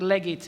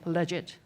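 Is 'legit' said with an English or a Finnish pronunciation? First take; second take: Finnish; English. First: The word has a Finnish-style pronunciation. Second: The word has a standard English pronunciation.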